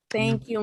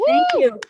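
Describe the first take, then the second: First: Said in the usual way. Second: Excited thanks. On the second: Real, not acted. Comic greets cheering crowd.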